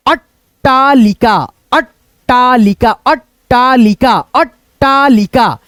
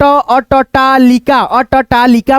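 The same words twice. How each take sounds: First: अट्टालिका slowly, stopping on अट् before टालिका; joined double t. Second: अटटालिका as a-ta-taa-li-ka, vowel after first ट; split-letter reading. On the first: Teacher showing how it should be read, अट्टालिका with held ट्ट. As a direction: hold the doubled ट in अट्टालिका, no vowel between. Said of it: "इसको कैसे पढ़ना है". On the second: Teacher showing an alternative reading, अटटालिका in split syllables. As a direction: pull अटटालिका apart letter by letter. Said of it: "पढ़े हुए तो गलत". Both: Shown as a demonstration.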